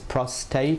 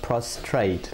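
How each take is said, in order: First: The word has no r sound after the t. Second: The word has an r sound after the t. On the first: The speaker calls it right. "It's prostate" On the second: The speaker calls it wrong. "not prostrate, like most people say"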